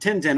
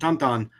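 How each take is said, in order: First: It is said with an English-sounding vowel. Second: It is said with a French-sounding nasal vowel. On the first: This is how we usually say it. "we pronounce them Tintin" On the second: Some people say it this way because of its origin. "some people call them Tonton because it's French in origin"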